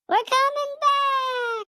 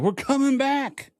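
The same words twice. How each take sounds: First: It is said in an excited, childlike voice. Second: It is said in his normal voice.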